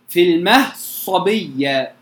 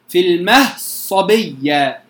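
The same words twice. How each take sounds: First: The d is merged fully into the following s. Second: The same.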